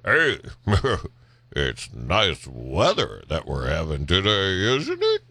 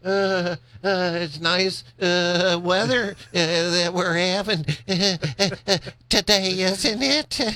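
First: It is said smoothly and confidently. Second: It is said hesitantly with many fillers.

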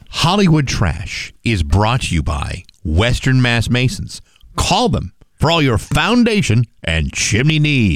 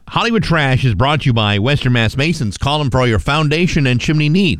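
First: It is read with more emphasis and energy. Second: It is read plainly, with little emphasis.

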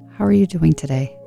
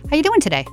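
First: The voice is deepened and caring. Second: The voice is lighter and casual.

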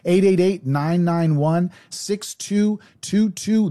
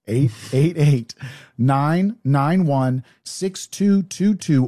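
First: The number is said fast. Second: The number is said slowly.

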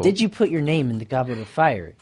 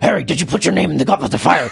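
First: It is asked in a calm, quiet way. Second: It is asked in an intense, urgent way.

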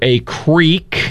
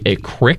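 First: Creek is said with an 'eek' vowel. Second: Creek is said as 'crick', Randolph County style.

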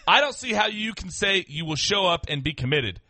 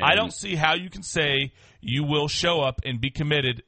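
First: It is read with the writer's intended attitude. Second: It is read flatly, without the intended attitude.

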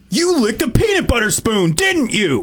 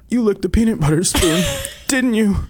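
First: It is said in an angry way. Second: It is said in a sad way.

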